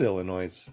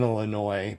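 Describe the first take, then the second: First: "Illinois" as il-ə-NOYZ; Illinois with sounded S. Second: Said in the usual way. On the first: Shown as a demonstration. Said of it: "I might have said". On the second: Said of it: "I know how to say it".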